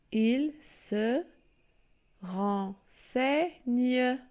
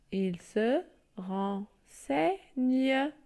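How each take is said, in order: First: Renseigne drawn out, ren-sei-gne; teacher reading renseigne in parts; syllable reading. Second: Renseigne stretched right out, ren-sei-gne-e; teacher dictating renseigne syllable by syllable; very slow syllable reading. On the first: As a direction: spell out il se renseigne by sound. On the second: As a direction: spell it out to the class at a crawl. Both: Shown as a demonstration. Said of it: "Je lis".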